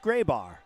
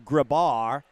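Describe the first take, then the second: First: The first vowel sounds like 'ay'. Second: The first vowel sounds like 'ah'. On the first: The speaker calls it right. "but now I know it's Graybar" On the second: The speaker calls it wrong. "I've been calling Kian's last name and your last name Grabar"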